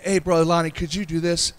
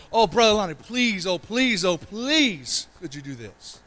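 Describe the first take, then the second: First: Said in the usual way. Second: Higher, pleading please please; begging plea. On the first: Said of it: "This isn't like". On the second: Shown as a demonstration. Pastor acts out begging a church elder, pleading. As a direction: beg Brother Lonnie like a needy child. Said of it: "it's a begging".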